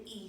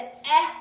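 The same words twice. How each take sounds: First: E said as the long ee, like its name; the long vowel E, quietly; long e sound. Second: Eh said short and open, slowly; the short vowel sound eh, drawn out. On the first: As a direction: say E like the letter name. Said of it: "and the E sound". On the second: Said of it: "has the eh sound". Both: Shown as a demonstration.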